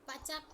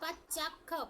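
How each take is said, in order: First: The 'ch' sound is said once, not doubled. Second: The 'ch' sound is doubled, with a half 'ch'. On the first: The speaker calls it wrong. "पचख नहीं" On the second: The speaker calls it right. "पहले आधा चा उच्चारण में लिया करो"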